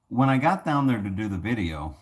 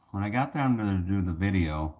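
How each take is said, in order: Both takes have the same delivery.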